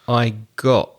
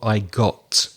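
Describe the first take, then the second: First: The final T becomes a glottal stop. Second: The final T is fully released. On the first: "Carla said"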